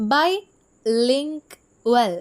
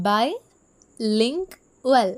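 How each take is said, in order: First: Bilingual drawn out very slowly, syllable by syllable; syllable demo. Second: Bilingual said slowly again, syllables split; a second slow, even take of Bilingual; syllable demo repeated. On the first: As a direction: stretch out Bilingual so each syllable is heard. (Bilingual എന്ന വാക്ക് അക്ഷരങ്ങളായി പതുക്കെ നീട്ടി) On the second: (Bilingual വീണ്ടും പതുക്കെ അക്ഷരം പിരിച്ച്) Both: Shown as a demonstration. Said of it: "bilingual എന്നുള്ളൊരു വാക്ക് എടുക്കാമെന്ന്".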